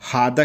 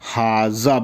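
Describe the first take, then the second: First: The middle consonant is a d sound. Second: The middle consonant is a z sound. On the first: This is the form used in most countries. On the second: This is the form used in a few countries.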